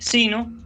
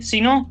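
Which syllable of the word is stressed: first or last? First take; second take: first; last. First: The stress is on the first syllable. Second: The stress is on the last syllable. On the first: The speaker calls it right. "dije sino ... como si fuera una palabra llana" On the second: The speaker calls it wrong. "no dije sino"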